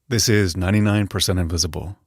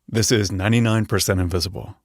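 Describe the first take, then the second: The two takes are said the same way.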